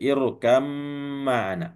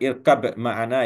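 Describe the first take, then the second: First: The b merges into a doubled m sound. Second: The first word ends with a separate b sound. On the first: The speaker calls it right. "berjumpanya ba dengan mim maka diidghamkan ya" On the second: The speaker calls it wrong. "Jadi bukan irkab ma'ana ya"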